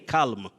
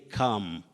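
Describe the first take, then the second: First: The L sound is pronounced. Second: The L sound is silent. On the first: The speaker calls it wrong. "Don't say calm" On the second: The speaker calls it right. "say calm"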